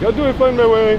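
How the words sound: It is spoken with a put-on German accent. "a terrible German accent"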